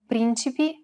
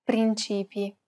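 First: Principi with the first syllable PRIN stressed. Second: Principi with a long stressed CI; stress on middle syllable. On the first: Host contrasts two look-alike words, stress on PRIN in Principi. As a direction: say Principi leaning on PRIN, rest light. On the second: Host contrasts two look-alike words, long stressed CI in principi. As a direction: say principi leaning on the middle, prin-CI-pi. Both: Shown as a demonstration. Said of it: "would otherwise appear the same".

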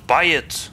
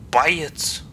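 First: Said in the usual way. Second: Whispered buy it; whispering. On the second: Shown as a demonstration. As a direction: hush the words buy it.

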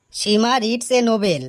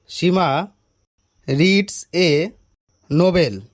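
First: Higher, slow and deliberate; slow repeat. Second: Halting, pauses between words; word-by-word repeat. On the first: Pupil repeats the question for teacher, slowly. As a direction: dictate the sentence slowly. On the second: Teacher types the question into his phone, halting. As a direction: say it piece by piece while typing. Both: Acted.

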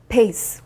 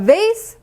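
First: "pace" said as base, lips closed for b, lower; B contrast. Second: "vase" with a buzzing v and rising end; V contrast. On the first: Teacher contrasting similar sounds, b in "pace" as base. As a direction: start "pace" with a b, not v. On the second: Teacher contrasting similar sounds, v in "vase". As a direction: teeth on lip for the v of "vase". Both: Shown as a demonstration. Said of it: "비슷한 발음을 가져왔는데".

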